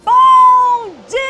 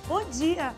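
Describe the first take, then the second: First: It is said very loudly. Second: It is said at normal, quieter volume.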